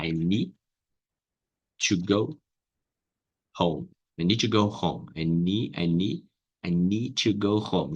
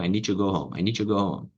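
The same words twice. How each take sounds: First: "I need to go home" split into separate words; careful step-by-step version; slow broken-up demo. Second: "I need to go home" run together, "need" flowing into "to"; natural connected speech; linked-up demo. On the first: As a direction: take it apart slowly, word by word. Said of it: "vai ficar assim". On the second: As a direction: blend the words into one smooth line. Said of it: "Junta uma coisa na outra". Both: Shown as a demonstration.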